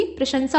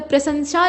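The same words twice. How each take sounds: First: प्रशंसा with sh first, then s; correct form. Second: प्रशंसा with s and sh swapped; wrong form. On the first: Teacher correcting it, प्रशंसा as "prashansa". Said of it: "बल्कि प्रशंसा होता है". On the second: Teacher showing the mistake, प्रशंसा as "prasansha". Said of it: "नहीं होता है बल्कि". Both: Shown as a demonstration.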